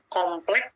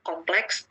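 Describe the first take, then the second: First: The word ends with a bare k sound. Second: The word ends with a clear ks sound. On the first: The speaker is uneducated. "Penutur yang tidak berpendidikan mungkin akan mengucapkan" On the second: The speaker is educated. "Bahasa Indonesia yang digunakan oleh kelompok penutur yang berpendidikan"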